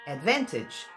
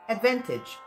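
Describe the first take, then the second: First: The last syllable has a short i sound. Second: The last syllable has a short i sound.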